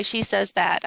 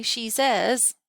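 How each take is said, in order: First: "She says that" run straight on, no pause, falling; demo phrasing. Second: "She says," with a rise and a comma pause after "says"; rising tune on "says", then a break; demo phrasing. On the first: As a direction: show that no comma is needed after "that". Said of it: "I would say it like this". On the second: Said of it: "then I would need a comma". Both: Shown as a demonstration.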